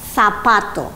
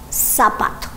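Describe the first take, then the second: First: It is said with a Spain Spanish accent. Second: It is said with a Latin American accent. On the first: "the rest of Spain, we say" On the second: "In Latin America, they say"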